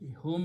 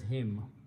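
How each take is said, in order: First: The syllable is said with an oo vowel. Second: The syllable is said with an ee vowel. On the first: "whom is pronounced as him" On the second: "Because of the sound of Ya, whom is pronounced as him"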